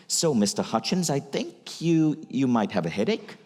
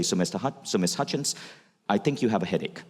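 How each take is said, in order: First: Statements rising like questions, with a hesitant stumble; unsure upward inflection. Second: Steady, sure delivery that lands down at the end of headache; confident statement. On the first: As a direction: make every phrase lift up as if asking. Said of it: "Notice the inflection, it sounds like a question". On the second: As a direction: state it plainly with a firm falling finish. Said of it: "The doctors that had confidence would say". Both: Shown as a demonstration.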